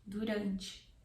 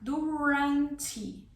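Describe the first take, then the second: First: The R is said the Brazilian Portuguese way. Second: The R is said like an American R. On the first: "the word in Portuguese in Brazil is said durante" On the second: "use the American R"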